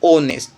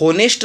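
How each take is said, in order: First: The word begins with a vowel sound. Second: The word begins with an h sound. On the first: The speaker calls it right. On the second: The speaker calls it wrong. "ये होनेस्ट नहीं है"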